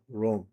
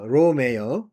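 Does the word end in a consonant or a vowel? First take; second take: consonant; vowel. First: The word ends on the m consonant. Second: The word ends with an extra e vowel. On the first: This is how it is said in English. "영어로는 롬이라고 그러잖아요" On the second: This is the original, correct way to say it. "원래 정확하게 말하면 어, 로마는 로메"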